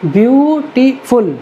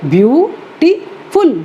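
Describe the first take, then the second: First: beautiful said slowly and clearly as a sample word; slow example word. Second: beautiful stretched very slowly into its three syllables, pitched higher, with a little laugh; teacher tapping out the syllables of beautiful. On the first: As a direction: present beautiful slowly to the class. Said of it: "तीन syllable हैं". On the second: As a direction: break beautiful into bjuː-ʈi-fʊl, slow and high. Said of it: "तीन syllable हैं beautiful में". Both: Shown as a demonstration.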